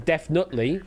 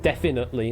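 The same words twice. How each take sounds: First: The vowel after 'defin' is left out. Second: The vowel after 'defin' is fully pronounced. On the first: "skip it entirely" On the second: "and actually pronounce it"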